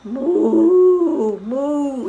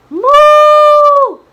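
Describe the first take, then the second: First: Gentle long moo; cow moo. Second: Put-on high, loud girlish moo; long high-pitched cow moo. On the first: Shown as a demonstration. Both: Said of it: "the cow says moo".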